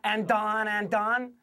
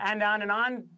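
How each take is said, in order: First: Each 'on' begins with an added D sound. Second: Each 'on' begins with a clean vowel sound. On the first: The speaker calls it wrong. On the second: The speaker calls it right. "less D again"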